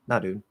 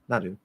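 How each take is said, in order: The two takes are said the same way.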